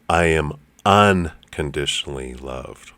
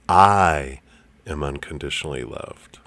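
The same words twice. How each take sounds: First: The stress is on unconditionally. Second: The stress is on the word I.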